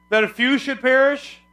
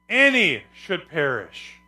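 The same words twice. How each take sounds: First: FEW high and loud, rising to "perish"; rhetorical question. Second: ANY punched and stretched, falling through "perish"; emphatic correct reading. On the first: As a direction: ask it high and loud as an obviously wrong guess. Wrong reading, asked before correcting it. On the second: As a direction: declare ANY slowly as the final answer. Gives the verse's true word. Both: Shown as a demonstration.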